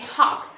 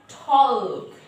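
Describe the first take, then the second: First: The L sound is silent. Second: The L sound is pronounced. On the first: The speaker calls it right. "we just say talk. So this L is also silent" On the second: The speaker calls it wrong. "We don't say talk"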